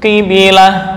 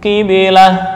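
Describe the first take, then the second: No difference in how they are said.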